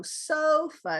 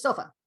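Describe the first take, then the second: First: "sofa" drawn out slowly, "SO" up high; slow stressed sofa. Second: Said in the usual way. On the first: Shown as a demonstration. Teacher slowly modelling the stress for a student. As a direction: slowly lift the first syllable of "sofa". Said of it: "stressed means it's a higher pitch". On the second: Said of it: "it's not just sofa".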